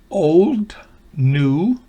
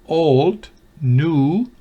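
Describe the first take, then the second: No difference in how they are said.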